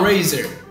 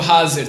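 First: It is said with an English accent. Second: It is said with a Portuguese accent.

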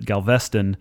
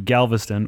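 First: Galveston is said the way Indianans say it. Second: Galveston is said in the usual way. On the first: "or as the Indianans pronounce it" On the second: "I'm taking a bit of a vacay down to Galveston"

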